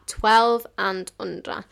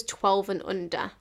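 First: TWELVE AND UNDER stressed slowly, TWELVE hit louder; emphatic repeat. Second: Said in the usual way. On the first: Real, not acted. Waitress reiterating the menu's age limit, TWELVE drawn out and emphatic. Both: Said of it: "I'll reiterate that".

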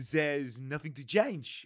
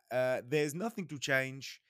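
First: Slow, hammed-up French accent quoting the team boss; badly faked French accent, stretched out; full French accent. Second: Slow, hammed-up Italian accent imitating the team boss; mock Italian manager voice; badly faked Italian accent, drawn out; terrible Italian accent. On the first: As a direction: do the manager in over-the-top French. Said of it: "just do it full French then". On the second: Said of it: "It's just my terrible Italian accent".

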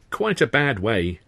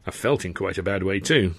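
First: Drawn out slowly with false pity; slow, sorrowful-sounding repetition; slow mock sympathy. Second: Said in the usual way. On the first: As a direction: linger on each word. Sid repeating, slow.

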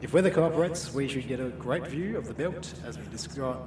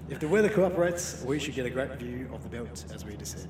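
First: "describe" said in place of descend, as dɪskɹaɪ; captain slips and says "describe" with a clear skr sound; pilot voice misread. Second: "descend" said properly as dɪsɛnd; captain fixes the slip and says "descend" with a clear s-e-n; pilot voice corrected. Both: Pretend. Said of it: "Ah, come on, [name]".

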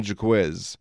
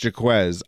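First: Jaquiz with the ending bent to "kiz"; Jaquiz, the playful way he calls him; nickname pronunciation. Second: Jaquez said as the name is meant to be; Jaquez, the correct version first; proper name. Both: Shown as a demonstration. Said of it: "I call him Jaquiz".

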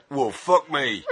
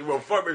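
First: A hint of a West Country musician, "well, fuck me" said with a laugh. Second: Said in the usual way. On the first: Reading out [name]'s reply from the Trogs tapes, faintly West Country. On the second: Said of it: "Well, that's funny in itself".

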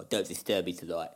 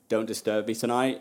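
First: Lower, softer put-on mob-boss accent; mock Stalin accent. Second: Said in the usual way. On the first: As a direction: growl the order like a Soviet boss, lower and softer. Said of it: "I might keep doing that". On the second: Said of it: "something like that, probably".

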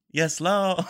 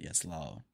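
First: Higher, laughing "Yes, Lord" without the d; rapper catchphrase. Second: Low, soft "Yes, Lord" with the d dropped; rapper catchphrase. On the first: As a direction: laugh out the clipped ad-lib. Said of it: "Two letters missing". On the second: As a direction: murmur it like the rapper's ad-lib. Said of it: "he said". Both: Retold or imitated.

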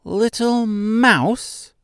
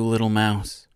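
First: Very high, slow squeak of a tiny queen; high squeaky mouse. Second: Said in the usual way. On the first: A narrator's reading. Mouse queen correcting Mister, high squeaky voice. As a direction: squeak it out like a proud little mouse. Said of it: "she replied in a high-pitched, squeaky voice".

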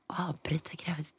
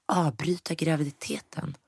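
First: Shocked whisper, no voice at all. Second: Said in the usual way. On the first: Retold or imitated. Turning to Kevin's mother at the doctor's, whispering. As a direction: breathe the question out unvoiced, stunned. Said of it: "skulle viska". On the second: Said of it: "skulle viska och bara".

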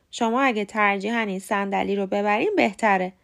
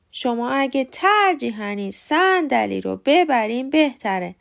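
First: Said in the usual way. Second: Wrong syllables punched in "ترجیحاً صندلی رو ببرین بهتره"; misplaced stress. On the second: Shown as a demonstration. (استرس غلط و کشیده روی سیلاب اول «ترجیحاً صندلی رو ببرین بهتره») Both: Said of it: "تفاوت رو متوجه شدین؟".

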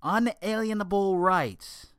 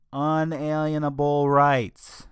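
First: "Unalienable" punched higher and slower, "rights" landed firmly; raised, insistent stress on "Unalienable rights"; emphatic stress. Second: "unalienable rights" drawn out slowly, each word weighted; deliberate slow stress on "unalienable rights". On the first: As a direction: hit "Unalienable" hard and high, then land "rights". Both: Shown as a demonstration. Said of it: "And I stress the word".

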